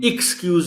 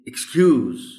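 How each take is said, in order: First: The stress is on the first syllable. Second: The stress is on the second syllable. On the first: The speaker calls it wrong. "हम excuse नहीं कह सकते" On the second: The speaker calls it right. "जो stress है वो सी पर है"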